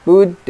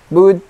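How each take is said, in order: The two takes are said the same way.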